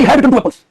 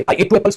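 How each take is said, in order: First: "had" punched higher and louder; stress on had. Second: Said in the usual way. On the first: Shown as a demonstration. Teacher mocking a student's wrong tense, "had" stressed. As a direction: hit "had" hard to show the wrong tense. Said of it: "यहाँ से यहाँ कैसे कूद गया तू?". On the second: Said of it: "मैंने दो Apple खाए थे".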